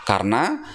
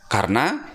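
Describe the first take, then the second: The two takes are said the same way.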